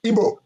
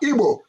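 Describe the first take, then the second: First: The word begins with a plain b sound. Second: The word begins with a gb sound. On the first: The speaker calls it wrong. "not Igbo" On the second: The speaker calls it right. "we are Igbo"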